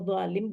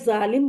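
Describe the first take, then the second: First: The first consonant is a heavy emphatic z. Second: The first consonant is a plain light z. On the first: "यहाँ तो व से बोलना पड़ेगा" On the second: "Urdu में ज़ालिम बोल देती हैं ज़ से"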